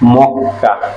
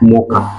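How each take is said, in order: First: The middle consonant is held long and doubled. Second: The middle consonant is short and single. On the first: The speaker calls it right. "But উচ্চারণ হবে মক্কা" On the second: The speaker calls it wrong. "হওয়ার কথা ছিল মকা"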